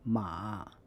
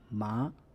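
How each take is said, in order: First: The tone dips low and rises again. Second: The tone rises from mid to high. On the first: "the third tone" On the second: "It can change to the second tone"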